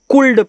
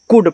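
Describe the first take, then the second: First: The word is said with an L sound. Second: The word is said without any L sound. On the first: The speaker calls it wrong. "बहुत students को कुल्ड पढ़ देते हैं" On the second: The speaker calls it right. "केवल कुड पढ़ना है"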